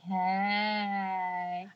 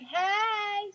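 First: It is lower in pitch and relaxed. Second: It is higher in pitch and energetic. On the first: "lower it to be a little more chill" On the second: "I'm always like"

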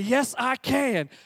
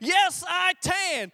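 First: It is said louder. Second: It is screamed as loud as possible.

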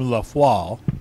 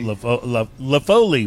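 First: It is said in an attempted French accent. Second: It is said in a Texan accent. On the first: "My French pronunciation is not great" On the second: "we'd say here in Texas"

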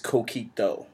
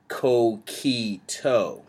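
First: The vowels are kept short and crisp. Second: A vowel is drawn out and lingered on. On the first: The speaker calls it right. "It's Coquito" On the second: The speaker calls it wrong. "We were saying kind of like Coquito"

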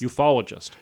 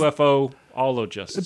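First: The O sound is said once in the middle. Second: The O sound is said twice in the middle. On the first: The speaker calls it right. "it works better as ufologist" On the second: The speaker calls it wrong. "Which means I'm using the O twice"

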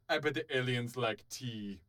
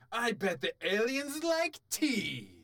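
First: It is read in a flat, plain way. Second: It is read with loud, excited energy.

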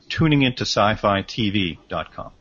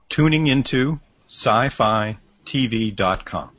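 First: It is said at normal, fast pace. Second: It is said slowly and carefully.

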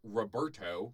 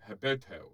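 First: The name begins with an R sound. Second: The name begins with an H sound.

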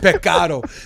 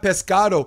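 First: The s sound in pescado is dropped. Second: The s sound in pescado is pronounced. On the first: "you take the letter S" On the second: "It's not pescado"

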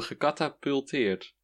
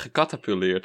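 First: There is a t sound after the l. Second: There is no t sound after the l. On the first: The speaker calls it right. "Oh, gecatapulteerd" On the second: The speaker calls it wrong. "Ik zei gecatapuleerd, zeker"

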